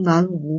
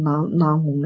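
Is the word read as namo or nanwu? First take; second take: nanwu; namo. First: It is read as nan wu, like the characters look. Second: It is read with the old sound, namo. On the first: This is the literal modern character reading. The speaker calls it wrong. "那你现在看那个像南方的南，无有的无，那你不能按照这个读" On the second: This is the traditional chanting pronunciation. The speaker calls it right. "那过去的发音它就是南无呀"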